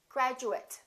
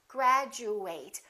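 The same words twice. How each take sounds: First: The ending is reduced, like 'it'. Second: The ending is full, like 'eight'. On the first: It is used as a noun or adjective. "if it's an adjective or a noun, then this is reduced" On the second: It is used as a verb. "If it's a verb, we fully pronounce ate"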